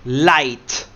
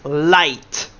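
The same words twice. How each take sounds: No difference in how they are said.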